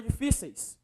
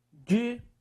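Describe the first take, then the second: First: Said in the usual way. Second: "Difíceis" split as DI... FÍ... CEIS; long pauses between syllables of "Difíceis". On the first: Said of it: "Agora veja a palavra difíceis". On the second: Shown as a demonstration. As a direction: break "Difíceis" into three separate pieces. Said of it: "Qual é a sílaba mais forte?".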